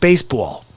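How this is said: It is said with a New Jersey accent.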